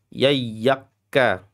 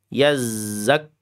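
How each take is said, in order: First: The middle consonant sounds like y. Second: The middle consonant sounds like a buzzing z. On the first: The speaker calls it wrong. "Keliru jim, keliru ya" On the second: The speaker calls it right. "Digetarkan di pada bagian sisi ujung ujung uh, mulut ya"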